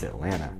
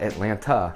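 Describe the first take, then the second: First: The second T is dropped and silent. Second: The second T is clearly pronounced. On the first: The speaker calls it right. "we don't pronounce it" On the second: The speaker calls it wrong. "So it's not Atlanta"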